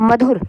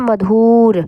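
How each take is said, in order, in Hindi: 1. दूसरे अक्षर का ऊ स्वर छोटा ही बोला जाता है। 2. दूसरे अक्षर का ऊ स्वर लंबा खींचा जाता है। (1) "छोटे में ही ख़त्म कर दे रहे हैं" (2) "अब हम ऐसे तो नहीं बोल रहे"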